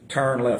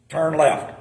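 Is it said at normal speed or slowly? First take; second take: normal; slowly. First: It is said at normal speed. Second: It is said low and slowly.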